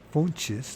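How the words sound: The name is said with a Brazilian Portuguese sound. "that's Brazilian, how you say it"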